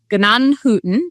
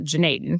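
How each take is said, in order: First: The name has a fuller German-style pronunciation. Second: The name is said in a shortened Americanized form. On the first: This is the traditional form of the name. "the traditional pronunciation is" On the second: This is how locals say it because it is easier. "everybody around here just calls it"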